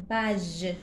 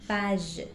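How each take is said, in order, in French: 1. Le g est doux, comme le s dans measure. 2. Le g est doux, comme le s dans measure.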